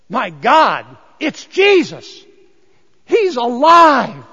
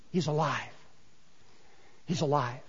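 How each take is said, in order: First: Loud, higher and very slow, overwhelmed with joy; astonished joyful cry. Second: Softer, lower, overwhelmed whisper-like awe; awed hushed repetition. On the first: Mary recognizing the risen Jesus, loud astonished cry. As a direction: cry out in amazed disbelief. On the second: Mary holding Jesus' legs, hushed in awe. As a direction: breathe it out in tender wonder. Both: Acted.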